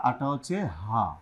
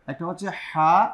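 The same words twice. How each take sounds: First: হা light from the bottom of the throat; slow, relaxed হা with no squeeze; easy ha. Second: হা squeezed from mid-throat; pressed ha. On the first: Teacher contrasting two letters, হা easy and unpressed. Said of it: "হলকে শুরু থেকে". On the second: Teacher contrasting two letters, হা pressed in mid-throat. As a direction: press the sound of হা from the middle of the throat. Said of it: "মধ্যখান থেকে আওয়াজকে চাপিয়ে". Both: Shown as a demonstration.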